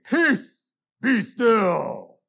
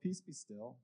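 First: It is said angrily, like a command. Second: It is said drowsily, like just waking up.

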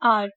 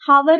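First: The word begins with a vowel sound. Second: The word begins with an h sound. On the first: The speaker calls it right. "एच silent होता है" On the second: The speaker calls it wrong. "हावर नहीं"

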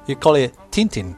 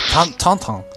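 First: The name is said with an English pronunciation. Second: The name is said with a French pronunciation. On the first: "In English you call it Tintin" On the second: "In French, ... It's Tantan"

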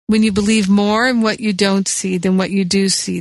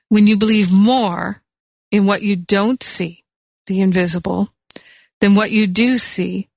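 First: It is said at a normal pace. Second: It is said slowly and deliberately.

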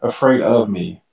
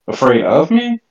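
First: It is read as a statement, falling at the end. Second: It is read as a question, rising at the end.

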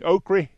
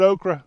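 First: Okra is said in a strong Southern accent. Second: Okra is said in a plain accent.

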